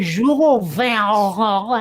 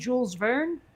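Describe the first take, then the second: First: It is said with a throaty foreign accent. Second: It is said with a plain American accent. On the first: This is how the other person says it. The speaker calls it wrong. "When when you say" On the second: This is how the speaker says it. The speaker calls it right. "and I say you mean"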